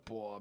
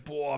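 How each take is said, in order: First: Lower, softer repelled "boah"; disgusted. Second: Drawn-out amazed "boah"; impressed. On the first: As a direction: drop "boah" in distaste. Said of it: "bist du richtig angewidert". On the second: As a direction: let "boah" swell in awe. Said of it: "boah, krass". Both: Shown as a demonstration.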